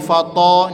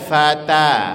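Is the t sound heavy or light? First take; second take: heavy; light. First: The t sound is heavy and thick. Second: The t sound is light and thin. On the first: The speaker calls it wrong. "Hati-hati jangan huruf ta-nya ikut menjadi tebal" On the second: The speaker calls it right. "ringan aja ta-nya"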